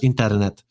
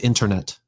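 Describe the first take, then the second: First: It is said with a Spanish R. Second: It is said with a deep English R. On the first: "versus in Spanish, internet" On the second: "in English, obviously you say internet with a deep R"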